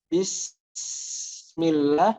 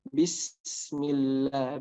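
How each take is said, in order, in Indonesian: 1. Bunyi s ditahan terlalu lama. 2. Bunyi s ditahan sebentar sebelum lanjut. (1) "jangan terlalu lama juga. Bismillah, nah itu salah" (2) "Harus ada eh, tadi waktunya dulu ya, mungkin satu detik atau dua detik"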